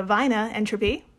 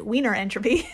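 First: "Wiener" said as "vainer", in a mock German accent; lightly put-on German accent, with a V for the W. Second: "Wiener" said as "weener" with an American R, in an American accent; plain American accent, "weener entropy". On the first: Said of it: "German accent anyone's ever done". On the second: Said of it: "in an American accent". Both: Shown as a demonstration.

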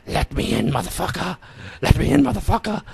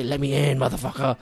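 First: Eerie put-on child voice, rising high; little girl's voice. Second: Said in the usual way. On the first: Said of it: "it's like a little girl's voice". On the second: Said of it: "and the voice say".

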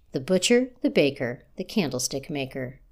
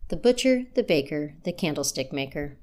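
No difference in how they are said.

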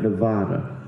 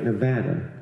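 First: Nevada with long "ah", "nuh-VAH-duh"; rejected outsider pronunciation. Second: Nevada with short "a" as in "cat"; correct local pronunciation. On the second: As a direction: say Nevada as "nuh-VAD-uh". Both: Shown as a demonstration. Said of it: "not Nevada".

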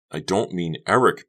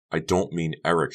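First: Loud, exasperated denial; cried out. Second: Said in the usual way. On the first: A narrator's reading. Becca correcting Honey about Eric, crying out. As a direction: cry it out in protest. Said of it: "Becca cried". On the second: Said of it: "she repeated".

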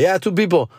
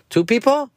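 First: Said in the usual way. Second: High, questioning ticket-taker voice; ticket guy asking. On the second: Retold or imitated. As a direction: mimic the lot attendant checking the car.

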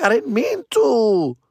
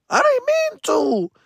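First: High, slow mock whine; hammed-up pleading, pitched high; whiny excuse. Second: Very high, drawn-out mock wail; hammed-up squeal of helpless regret; squealed excuse. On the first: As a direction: plead innocence in a drawn-out whine. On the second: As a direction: plead in a tiny falsetto whine. Repeats excuse, far higher.

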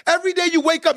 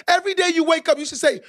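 First: Said in the usual way. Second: Preacher's emphatic repeat; louder repeat. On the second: Shown as a demonstration. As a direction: raise it up and punch it out. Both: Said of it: "Let me say that one more time".

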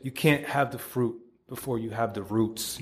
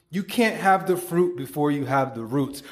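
First: Quieter repeat. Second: Announced punchline with a rising finish on can't; proclaimed motto. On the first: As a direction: let the motto settle gently. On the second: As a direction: deliver it as the quote to remember. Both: Shown as a demonstration. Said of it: "Write that shit the fuck down".

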